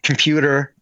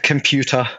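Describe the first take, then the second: First: It is said with an American accent. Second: It is said with an Australian accent. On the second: "I still say"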